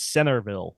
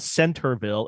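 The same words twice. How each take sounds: First: "Centerville" as "Sennerville", double N and no T; dropped T. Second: "Centerville" with a clear T after the N; T pronounced. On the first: Correcting to Utah dialect, T left out. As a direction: drop the T from "Centerville". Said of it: "like C E N N E R". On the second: Showing how it is not said locally, T sounded. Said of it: "leave out, like, the, the T". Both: Shown as a demonstration.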